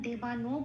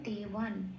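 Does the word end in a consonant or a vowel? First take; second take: vowel; consonant. First: The final n is followed by a full vowel. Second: The final n is joined without a vowel. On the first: The speaker calls it wrong. "দেবানো বলতে পারবো না" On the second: The speaker calls it right. "সেটা তখন আগের অক্ষরের সাথে জুড়ে উচ্চারিত হয়"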